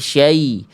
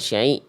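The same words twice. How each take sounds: First: The syllable is said clearly without nasality. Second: The syllable is said with a nasal sound. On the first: The speaker calls it right. "tapi syai" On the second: The speaker calls it wrong. "jangan sampai ada sengaunya. ... jangan syai"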